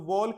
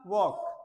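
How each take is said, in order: First: The L sound is pronounced in the word. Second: The L sound is silent in the word. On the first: The speaker calls it wrong. "वोल्क नहीं था" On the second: The speaker calls it right.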